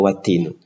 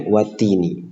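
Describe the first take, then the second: First: The word ends with a u vowel. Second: The word ends with an i vowel. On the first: The speaker calls it wrong. "tidak watinu" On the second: The speaker calls it right. "di sini kita bacanya watini"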